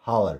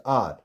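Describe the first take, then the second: First: "hour" starting on an audible h; mispronounced "hour" with h; wrong, h sounded. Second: "R" for hour, starting on the vowel; correct, silent h. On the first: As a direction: say "hour" as how-er. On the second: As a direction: say "R" as the word hour with no h. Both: Shown as a demonstration.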